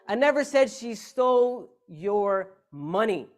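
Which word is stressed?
money. The stress is on "money".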